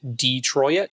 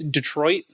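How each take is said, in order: First: Detroit is pronounced the Canadian way. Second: Detroit is pronounced the usual, non-Canadian way. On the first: The speaker calls it wrong. "Please stop saying it Detroit. No one wants to hear it like that" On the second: The speaker calls it right. "So it's Detroit"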